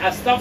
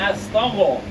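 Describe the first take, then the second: First: The throaty gh sound is left out. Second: A throaty gh sound is clearly voiced. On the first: The speaker calls it wrong. "गैन की जगह पे फे ले आते हैं, तो नहीं" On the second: The speaker calls it right. "गैन को थोड़ी आवाज लेंगे"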